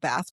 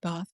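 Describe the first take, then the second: First: Bath is said the American way. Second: Bath is said the British way. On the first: This is how the spelling reads. "spelled Bath" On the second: This is how the local people say it. "but they pronounce it Bath"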